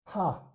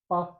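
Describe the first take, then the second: First: The p is followed by a puff of air. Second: The p has no puff of air. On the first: "this is in the second column, so it should be aspirated" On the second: "The first one is pa"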